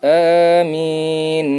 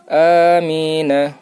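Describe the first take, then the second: First: The word ends on a consonant. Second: The word ends with a full vowel. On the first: The reader stops at a verse mark. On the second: The reading continues without a stop.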